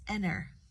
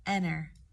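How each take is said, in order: No difference in how they are said.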